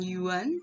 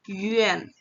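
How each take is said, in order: First: Yuan as "yoo-wan", with an open "a", rising; wrong Yuan. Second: Yuan as "yü-en", falling at the end; correct Yuan. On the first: Teacher showing the reading to avoid, wrong-pronunciation demo. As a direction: say Yuan with plain "oo" and "an". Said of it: "Bukan Yuan". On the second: Teacher modelling the proper reading, pronunciation demo. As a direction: glide Yuan from rounded ü into "en". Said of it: "itu bacanya menjadi". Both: Shown as a demonstration.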